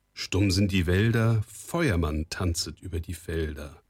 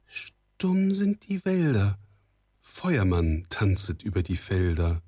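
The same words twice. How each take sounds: First: Steady, measured verse without hesitation; fluent recitation. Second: Unsure recitation. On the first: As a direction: recite the charm confidently from memory. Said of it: "noch einmal zusammen und ohne Anstoß". (ohne Stocken aufgesagter Spruch) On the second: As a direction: feel slowly for the half-remembered words. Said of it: "mit unsicherer Stimme selbst fortfuhr". (unsicher und gedehnt aufgesagt) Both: A narrator's reading.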